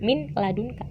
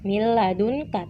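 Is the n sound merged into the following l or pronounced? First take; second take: pronounced; merged. First: The n is pronounced clearly before the l. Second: The n merges into the l, without nasalization. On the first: The speaker calls it wrong. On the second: The speaker calls it right. "Nunnya itu langsung ke lamin"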